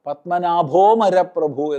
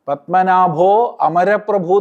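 First: The 'a' of amaraprabhu is dropped after 'o'. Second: The 'a' of amaraprabhu is pronounced separately. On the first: The speaker calls it right. "അവിടെ ആ ഉച്ചരിക്കരുത്" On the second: The speaker calls it wrong. "പലരും പറയാറുണ്ട്. അങ്ങനെ ചെയ്യരുത്"

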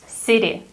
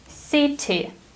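First: The middle consonant sounds like a soft D. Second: The middle consonant is a clear T. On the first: "the sound T in American English becomes D if it goes between two vowels" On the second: "British English sounds completely different"

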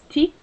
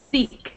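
First: It begins with a tongue stop like a t. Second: It begins with a hiss of air through teeth. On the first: The speaker calls it wrong. "instead of using your tongue, where you're like this" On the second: The speaker calls it right. "It's just the air coming out of your teeth when you're clenching like this"

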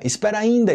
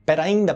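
First: The first word is said in full. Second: The first word is shortened, dropping its start. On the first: The speaker calls it wrong. "Ninguém fala espera ainda" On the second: The speaker calls it right. "A gente fala pera ainda"

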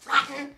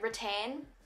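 First: The word is said in a broad, rough way. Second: The word is said in a standard way. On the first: The speaker calls it wrong. "it's definitely not rotten, surely not, because that sounds so bogan" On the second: The speaker calls it right. "I don't know if that's how you say it"

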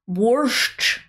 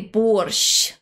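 First: The final sh sound is hard. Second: The final sh sound is soft. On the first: The speaker calls it wrong. "you are saying it wrong" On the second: The speaker calls it right. "You should say борщ"

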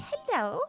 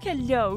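First: It is said in a very high-pitched voice. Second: It is said in a lower-pitched voice.

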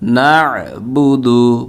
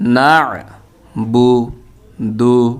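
First: The syllables are joined smoothly together. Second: The syllables are said separately with breaks.

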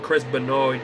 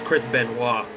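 First: The surname is pronounced the plain English way. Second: The surname is pronounced the French-Canadian way. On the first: The speaker calls it wrong. "Instead of saying Chris Benoit" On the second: The speaker calls it right. "It's a Canadian thing"

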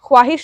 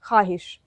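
First: The 'w' sound after 'kh' is pronounced. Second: The 'w' sound after 'kh' is silent. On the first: The speaker calls it wrong. "ख्वाहिश नहीं" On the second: The speaker calls it right. "वाव है लेकिन इसको पढ़ा नहीं जा रहा है"

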